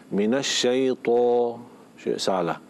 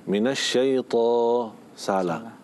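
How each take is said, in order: Both takes have the same delivery.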